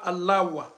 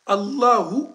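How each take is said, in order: First: The word ends with a 'wa' sound. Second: The word ends with a 'u' sound. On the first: The speaker calls it wrong. "on dit pas Allahwa" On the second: The speaker calls it right. "on dit Allahu akbar"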